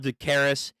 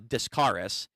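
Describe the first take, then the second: First: The first syllable contains no s sound. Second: The first syllable contains an s sound. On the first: The speaker calls it wrong. "I call her Decaris" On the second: The speaker calls it right. "it's supposed to be uh, Discaris"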